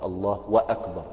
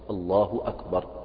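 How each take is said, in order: First: An extra wa syllable joins the two words. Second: No extra syllable comes between the two words. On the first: The added conjunction spoils the validity of the prayer. The speaker calls it wrong. "بعض الناس يقول الله وأكبر" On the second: This is the only valid wording of the opening takbir. The speaker calls it right. "الله أكبر هكذا"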